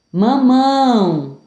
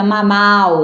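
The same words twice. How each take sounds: First: Slow mamão with a held nasal ão; nasal diphthong. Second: Mamal with an oral ending; nasal removed. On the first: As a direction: stretch the end of mamão through the nose. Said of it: "Com o tio agora". (mamão com som nasal) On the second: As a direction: say mamal, ending through the mouth only. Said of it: "O tio de mamão fica". (mamal sem som nasal) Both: Shown as a demonstration.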